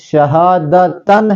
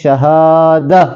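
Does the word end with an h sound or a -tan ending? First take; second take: -tan ending; h sound. First: The word ends with a -tan sound. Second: The word ends with a soft h sound. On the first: The reading continues without a stop. "मसलन शहादतन है यहां पर" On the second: The reader stops on this word. "वक्फ की सूरत में पढ़ेंगे शहाद, यानी ता की आवाज को हा में तब्दील करेंगे"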